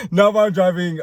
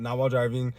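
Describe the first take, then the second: First: Louder, higher, stressing "Not while driving"; emphatic correction. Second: Said in the usual way. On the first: Real, not acted. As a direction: insist on "Not", loud and high.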